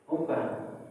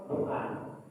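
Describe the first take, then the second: Both takes have the same delivery.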